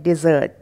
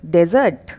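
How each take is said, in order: First: डिज़र्ट as "di-ZERT"; short "di" first, long "zert" in डिज़र्ट; corrected dessert. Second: डेजर्ट as "DEZ-ert"; mispronounced dessert. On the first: Teacher correcting the slip, sweet dish as डिज़र्ट. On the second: Teacher setting up the mistake, dessert as डेजर्ट. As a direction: open with "de" in डेजर्ट, like the arid land. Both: Shown as a demonstration. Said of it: "नहीं, वो है डिज़र्ट".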